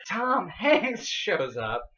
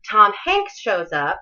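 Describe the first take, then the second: First: Very slow, with weight on Tom; big reveal, stretching Tom; dramatic announcement. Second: Offhand, slow and casual; shrugging mention of a big moment; nonchalant. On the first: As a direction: announce Tom Hanks like a grand entrance. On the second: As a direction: toss it off like it's nothing. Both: Shown as a demonstration. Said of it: "You can't be nonchalant about that".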